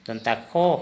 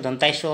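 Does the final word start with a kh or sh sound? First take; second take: kh; sh. First: The last word starts with a kh sound. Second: The last word starts with an sh sound. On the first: This is how the letter's name is actually spoken. "लेकिन उच्चारण के time में दंता खो होगा" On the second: This is how the letter's name is written. "ऐसे तो दंताय शो होता है"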